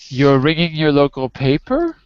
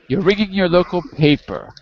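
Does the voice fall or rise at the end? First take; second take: rise; fall. First: The voice rises at the end. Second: The voice falls at the end. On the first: It sounds like a question. The speaker calls it wrong. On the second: It is a plain statement. The speaker calls it right.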